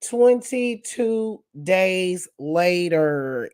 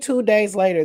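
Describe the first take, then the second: First: It is said in a SpongeBob narrator voice. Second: It is said in the speaker's normal voice.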